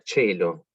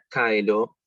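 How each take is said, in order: First: The word begins with a ch sound. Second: The word begins with a hard k sound. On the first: This is the Italianate church pronunciation. "se pronuncia chelo" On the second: This is the original classical pronunciation. "como se pronunciaría originalmente"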